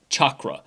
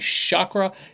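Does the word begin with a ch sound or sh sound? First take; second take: ch; sh. First: The word begins with a ch sound. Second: The word begins with a sh sound. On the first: It refers to the original Sanskrit tantric systems. The speaker calls it right. "the word chakra is like chocolate" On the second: It refers to the modern seven-colour rainbow system. The speaker calls it wrong. "saying it with the SH"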